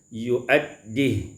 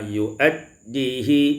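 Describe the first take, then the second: First: The word ends on a bare h. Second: A short vowel follows the final h.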